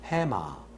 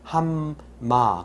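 First: The m sound is single in the middle. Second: The m sound is doubled in the middle. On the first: The speaker calls it right. "해마 하나만 발음하거든요" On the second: The speaker calls it wrong. "우리는 그걸 함마 그래서 미음을 두 개를 넣죠. 이건 틀린 거예요"

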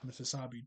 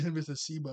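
First: The name ends with the syllables sa-bi. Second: The name ends with the syllables si-ba. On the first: The speaker calls it wrong. "I've been saying Mississabi" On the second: The speaker calls it right. "That's how you say it"

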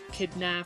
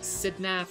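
First: The name begins with a k sound. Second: The name begins with an s sound.

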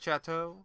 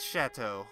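First: The word begins with a ch sound. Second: The word begins with an sh sound. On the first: The speaker calls it wrong. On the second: The speaker calls it right.

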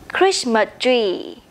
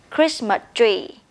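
The two takes are said the same way.

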